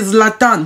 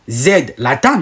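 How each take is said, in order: First: The Z and l are joined together. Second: The Z is split off from the rest. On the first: The speaker calls it right. "vous prononcez Zlatan. Vous le prononcez normalement" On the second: The speaker calls it wrong. "vous ne dites pas Z, Latan"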